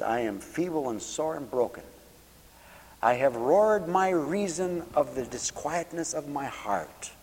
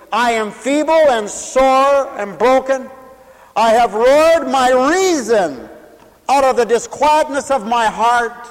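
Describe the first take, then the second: First: Mother quoting scripture. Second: High, loud and slow, crying out the verse; full-force preaching. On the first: Retold or imitated. Mother weeping at the table, softly reciting the psalm. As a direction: quietly recite it as the grieving mother did. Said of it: "And she says". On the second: Acted. Preacher crying out the psalm of a broken heart, loud and slow. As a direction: wail the psalm out to the whole church.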